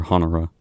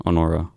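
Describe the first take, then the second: First: Honora as HON-er-uh, H sounded; sounded-H pronunciation. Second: Honora as oh-NOR-uh, no H; silent-H pronunciation. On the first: Radio host offering another reading of the name, Honora with sounded H. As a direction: stress the first syllable of Honora, with an H. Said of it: "I don't know". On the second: Radio host trying out a record's name, Honora with silent H. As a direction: stress the middle of Honora, dropping the H. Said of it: "Honora sounds right". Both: Shown as a demonstration.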